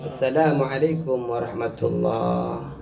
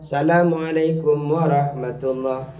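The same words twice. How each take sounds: First: The greeting begins with 'as-salam', with the article. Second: The greeting begins with plain 'salam', no article. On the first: The greeting is valid in prayer. The speaker calls it right. "Harus menyertakan assalamualaikum" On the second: The greeting is not valid in prayer. The speaker calls it wrong. "Tidak cukup"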